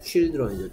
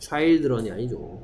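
First: The first vowel sounds like 'ee'. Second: The first vowel sounds like 'eye'. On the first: The speaker calls it right. "하지만 여기에 아이는 이 소리 납니다" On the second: The speaker calls it wrong.

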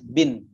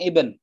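First: The word starts with a b sound. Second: The word starts with a vowel sound. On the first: This is how Indonesians say it. "kalau orang Indonesia ngomongnya" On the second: This is how Arabs say it.

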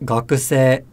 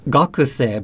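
First: The pitch rises and stays level. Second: The pitch drops after a high point. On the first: The speaker calls it right. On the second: The speaker calls it wrong. "it's not"

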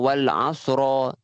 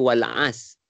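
First: The word ends with a clear, full ra syllable. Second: The word ends on s with no r sound. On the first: "bukannya ra yang jelas macam wal asra" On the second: "A-S je. Sebenarnya salah lah patutnya"

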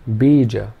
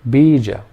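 First: Only the first vowel is long. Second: The same.

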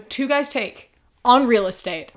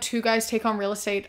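First: There is a break between 'Take' and 'on'. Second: The name flows as one unbroken phrase. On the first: The name is heard as 'Two Guys Take', found on an app called Real Estate. The speaker calls it wrong. "It sounds like they're called Two Guys Take and the app is Real Estate" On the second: The name is read as a single name. The speaker calls it right. "instead of saying like"

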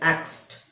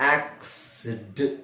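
First: The word ends with a short 't' sound. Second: The word ends with an extra 'id' syllable. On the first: The speaker calls it right. "ಅದೇ ನಾವು ಟ ಹಾಕಿದ್ರೆ ಏನಾಗುತ್ತೆ" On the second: The speaker calls it wrong. "ಎಕ್ಸ್ ಆದ್ಮೇಲೆ ಡ್ ಹೇಳ್ಬೇಕಾದ್ರೆ ಅಲ್ಲಿ ಒಂದು ಕ್ಲಾಶ್ ಆಗುತ್ತೆ"

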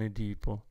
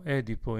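First: The stress follows the Greek pattern. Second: The stress follows the Latin pattern. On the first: The speaker calls it wrong. "e non Edipo" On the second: The speaker calls it right. "la lettura corretta è Edipo"

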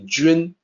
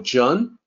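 First: It is said with the Mandarin pronunciation. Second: It is read as English spelling suggests. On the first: The speaker calls it right. "but it's actually Jun" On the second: The speaker calls it wrong. "based on the way that it's spelled"

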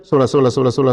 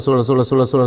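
Both takes have the same delivery.

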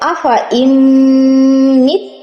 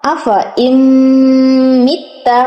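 First: The last word ends on a stopped consonant. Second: The last word ends with a full vowel. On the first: The reader pauses at this word. "এখানে যদি আমি থেমে যাই" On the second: The reading continues without stopping. "বানান করতে গেলে মিথ্যা হয়"

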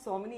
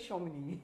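First: The name begins with an s sound. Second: The name begins with a sh sound. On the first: This is the pronunciation used outside Bengali. "jaise mera naam Somini hai" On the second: This is the Bengali pronunciation of the name. "a Bengali will say Shomini"

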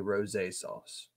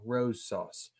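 First: The first word has two syllables, ending in 'ay'. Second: The first word has one syllable, like 'rose'. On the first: The speaker calls it right. "But I think it's actually rosé sauce" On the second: The speaker calls it wrong. "I feel like I'm always saying this wrong"

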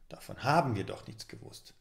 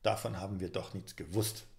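First: The stress falls on the word haben. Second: The stress falls on the word nichts.

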